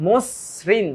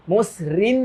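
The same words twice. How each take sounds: First: মসৃণ split as "mos-srin"; correct pronunciation shown. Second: মসৃণ split as "mos-rin"; wrong pronunciation shown. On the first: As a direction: double the s in মসৃণ, into both halves. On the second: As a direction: break মসৃণ so the second part starts on r. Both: Shown as a demonstration. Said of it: "মসৃণ না কিন্তু".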